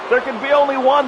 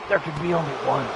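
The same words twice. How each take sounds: First: It is said in the speaker's normal voice. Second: It is said in a put-on character voice.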